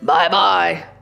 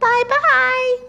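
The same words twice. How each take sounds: First: It is said in a deep, gruff voice. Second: It is said in a high, squeaky voice.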